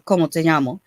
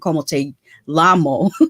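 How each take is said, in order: First: The double L is not said as an L. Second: The double L is said as a plain L.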